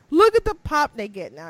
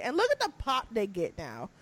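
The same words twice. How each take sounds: First: "Look at the pop they get now" said louder, punching "Look"; louder insistent repeat; emphatic repeat. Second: Said in the usual way. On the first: Real, not acted. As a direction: hammer the point home a second time.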